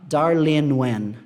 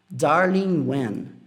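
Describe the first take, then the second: First: The g drops and n runs into 'when'. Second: The ending -ing is said fully before 'when'. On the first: "como se o N conectasse mais no W" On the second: "se tivesse assim, ó"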